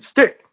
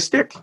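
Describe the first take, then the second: First: It is said louder, with more force and passion. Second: It is said at normal loudness, without force.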